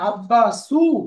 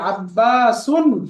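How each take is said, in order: First: The word ends on a vowel, no n. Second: The word ends with a final n sound. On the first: The speaker calls it wrong. "আব্বাসু একদম মা পড়বো না" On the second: The speaker calls it right. "আব্বাসুন যেহেতু এটা ডিপটোট না"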